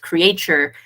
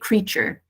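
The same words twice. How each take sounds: First: The A is sounded as a separate vowel. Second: The A is not sounded as a separate vowel. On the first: The speaker calls it wrong. "you read it as creature, which is how it's spelled" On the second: The speaker calls it right. "English people, when they see that word, they say creature, just like feature"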